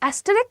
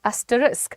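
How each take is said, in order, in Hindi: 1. यह शब्द 'ick' ध्वनि से खत्म होता है। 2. यह शब्द 'isk' ध्वनि से खत्म होता है। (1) "मैंने बहुत बार सुना है एस्टरिक एस्टरिक एस्टरिक क्या होता है?" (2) "how do you pronounce it?"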